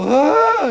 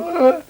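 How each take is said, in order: First: Imitating women's swooning "Ah", pitched higher and louder; a playful mimicked sigh of admiration, "Ah"; mock swoon. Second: Imitating men's "Ah" pitched much higher; a mock high "Ah" from flustered men; men's raised voices. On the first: Mimicking how women react when Sean enters a room, with a higher mock swoon. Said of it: "they, they go". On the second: Mimicking men whose voices rise around Sean, with a high mock "Ah". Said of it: "The voices go up a little".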